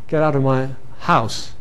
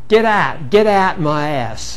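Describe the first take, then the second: First: The h in house is pronounced. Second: The h is dropped from house.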